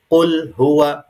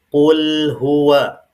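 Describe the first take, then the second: First: The l is cut off abruptly, sound choked. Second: The l flows lightly for a moment. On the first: The speaker calls it wrong. "tidak boleh suara tercekat atau syiddah" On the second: The speaker calls it right. "Harus sedikit dialirkan"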